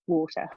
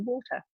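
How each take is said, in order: First: It is said in an American accent. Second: It is said in an English accent.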